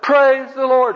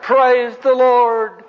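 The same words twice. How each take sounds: First: High, forceful praise shout; louder retold holler. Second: High, long drawn-out holler; retold holler. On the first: Hippie praising God over the drowned Egyptian army, hollering louder. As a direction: holler it higher and harder, less drawn out. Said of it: "the guy hollered". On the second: Hippie reading the Bible on the curb, hollering with joy. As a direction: holler it out, stretching the words way up high. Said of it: "And he hollered".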